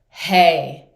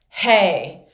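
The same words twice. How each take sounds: First: The voice sounds supported and powerful. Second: The same.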